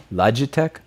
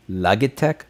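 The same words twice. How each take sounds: First: "Logitech?" said with a soft j sound, loj-i-tech, asking; soft g pronunciation. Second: "Logitech?" with a hard g, log-i-tech, rising; hard g pronunciation. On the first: Streamer testing the brand name with a soft j, questioning. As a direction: try "Logitech?" as loj-uh-tek. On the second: Streamer testing the brand name with a hard g, questioning. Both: Shown as a demonstration. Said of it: "This is a Logitech".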